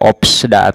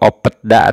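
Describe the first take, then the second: First: A p and an s come before da. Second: A p and a t come before da. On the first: "Tidak opsda ... Salah" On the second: "atau opetda ... Salah"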